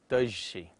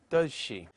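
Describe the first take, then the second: First: The first word ends with a zh sound. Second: The first word ends with a z sound.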